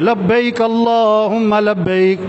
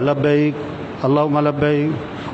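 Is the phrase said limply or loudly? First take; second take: loudly; limply. First: It is said loudly with strong energy. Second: It is said limply with little energy. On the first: The reciter is trying to stir others up. The speaker calls it right. "मैंने खुद पढ़ा जोर से" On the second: The reciters lack heartfelt devotion. The speaker calls it wrong. "अब बड़ा ढीला ढीला पढ़ा"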